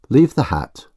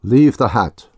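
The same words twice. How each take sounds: First: Clearly spoken through a cloth; distinct through cloth. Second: Muffled, louder command. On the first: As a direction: enunciate each word behind a cloth. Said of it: "speaking distinctly through the cloth". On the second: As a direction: speak as if through cloth. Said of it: "in a muffled voice". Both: Acted.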